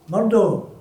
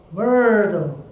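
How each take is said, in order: First: Said in the usual way. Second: "Murdo." with a strong rolled R; "Murdo." said with a heavy R sound; stressing the R. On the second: Acted. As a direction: lean hard on the R in "Murdo.". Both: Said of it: "stressing the R".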